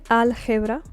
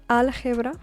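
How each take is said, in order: No difference in how they are said.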